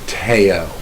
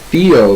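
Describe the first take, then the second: First: It begins with a plain t sound. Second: It begins with a th sound. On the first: "The H is silent" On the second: "as we would pronounce it"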